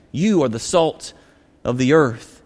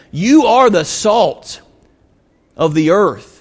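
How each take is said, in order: First: Preacher closing the thought, tender and hushed. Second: Preacher declaring "you are the salt of the earth" with force; emphatic declaration. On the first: Preacher repeating point gently. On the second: Preacher driving home his point. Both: Acted.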